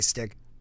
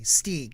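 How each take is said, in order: First: The vowel in the name is short. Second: The vowel in the name is a long E. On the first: The speaker calls it wrong. "I always say your name wrong" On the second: The speaker calls it right. "It's like a long E"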